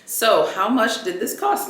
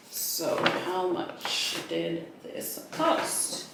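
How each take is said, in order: First: Said in the usual way. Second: Slow conspiratorial whisper about the price; hushed, drawn-out teaser whisper. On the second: Shown as a demonstration. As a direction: whisper it slowly, as a secret.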